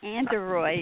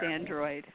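First: It is said in a Philadelphia accent. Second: It is said in a standard American accent. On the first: "The Philadelphia accent" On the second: "I know it's Android"

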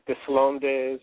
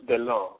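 First: The name is said with an audible s sound. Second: The name is said without any s sound. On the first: The speaker calls it wrong. "I said Deslonds or something last week" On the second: The speaker calls it right. "but it's Charles Dillon"

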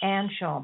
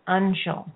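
First: The first vowel is not like 'under'. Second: The first vowel sounds like 'under'. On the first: The speaker calls it wrong. "not Anshul" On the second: The speaker calls it right. "like under, un, in the under"

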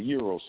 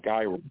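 First: The word is said the Greek way. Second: The word is said the common, everyday way. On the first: This is how Greek speakers say it. "the actual Greeks call it a euro sandwich" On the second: This is how most people say it. "people call it a gyro sandwich"

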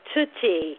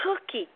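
First: The word starts with a t sound. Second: The word starts with a k sound. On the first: The speaker calls it wrong. "he substitutes a t for a k in cookie" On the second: The speaker calls it right. "oh, you mean cookie"

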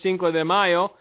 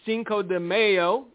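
First: It is spoken with a Spanish accent. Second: It is spoken with an American English accent. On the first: "as, you know, people with a Latin background would say" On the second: "as Americans would say"

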